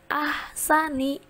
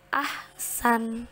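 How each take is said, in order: First: The word ends with a short 'i' vowel. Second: The word ends on the consonant 'n'. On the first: The word is read in the middle of a sentence. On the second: The reading stops at this word.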